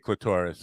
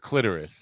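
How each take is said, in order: First: It is said rhyming with Lavoris. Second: It is said not rhyming with Lavoris. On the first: "I always say clitoris. I don't know because it rhymes with lavoris" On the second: "I know it's clitoris"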